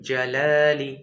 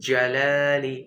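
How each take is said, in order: The two takes are said the same way.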